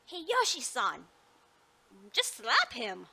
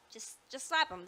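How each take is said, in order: First: Loud, urgent Just slap him; loud exclamation. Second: Said in the usual way. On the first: Acted. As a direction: call it out sharply. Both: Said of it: "I'm, I'm sorry".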